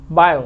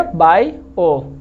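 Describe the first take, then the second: First: Said in the usual way. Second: bio stretched very slowly into two clear vowels; drawn out. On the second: Shown as a demonstration. Teacher checks understanding, then stretches bio slowly. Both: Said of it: "समझ में आ गया?".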